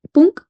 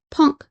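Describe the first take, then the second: First: "punk" read as spelled, with a Spanish u like "poonk". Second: "punk" with an English vowel, close to "pahnk"; English pronunciation. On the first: Teacher models the adapted Spanish word, spelled pronunciation. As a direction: say "punk" the Spanish way, the u as in "luna", higher and louder. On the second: Teacher gives the form to avoid, English pronunciation. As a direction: say "punk" as an English speaker would. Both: Shown as a demonstration. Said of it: "y no punk".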